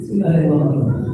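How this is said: It is said in a soft, tender way.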